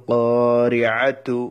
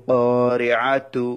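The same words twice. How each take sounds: Both takes have the same delivery.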